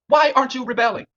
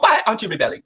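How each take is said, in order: First: It is said in the speaker's plain accent. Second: It is said in an imitated Nigerian accent.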